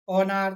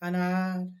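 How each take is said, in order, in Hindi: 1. पहला स्वर 'o' जैसा सुनाई देता है। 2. पहला स्वर 'a' जैसा सुनाई देता है।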